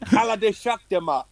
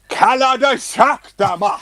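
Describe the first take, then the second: First: It is said plainly, as an ordinary phrase. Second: It is said dramatically, like the Snap dance track.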